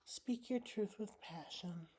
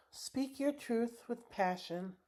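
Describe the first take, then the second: First: Much softer, almost to herself; quiet echo. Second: Slow reading of the card. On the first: Repeating the card's words to herself, much softer. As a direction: let it sink in, murmured back. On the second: Reading her tarot card aloud to viewers, slow and soft. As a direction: read each word out slowly and softly. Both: Shown as a demonstration. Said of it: "And this says".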